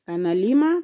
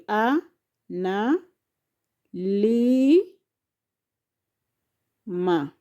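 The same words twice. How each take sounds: First: Said in the usual way. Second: "a, na, li, ma" as four separated syllables, li drawn out; long pauses between a, na, li and ma. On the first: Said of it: "those are four syllables". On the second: Shown as a demonstration. Teacher giving learners four syllables, syllable by syllable. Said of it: "which has syllable".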